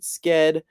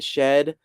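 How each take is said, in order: First: The word begins with a 'sk' sound. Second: The word begins with a 'sh' sound. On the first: "Some people pronounce it sked" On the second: "some people pronounce it shed"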